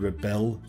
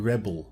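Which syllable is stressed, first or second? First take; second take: second; first. First: The stress is on the second syllable. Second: The stress is on the first syllable. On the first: It is a verb. "if it's on the second syllable, it's a verb" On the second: It is a noun. "If the stress is on the first syllable, then it's a noun"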